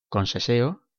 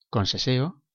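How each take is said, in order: The two takes are said the same way.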